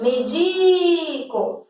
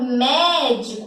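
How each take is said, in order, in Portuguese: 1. A tônica está na segunda sílaba. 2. A tônica está na primeira sílaba. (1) "a sílaba tônica é o di" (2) "a sílaba tônica de médico é a terceira de trás para frente"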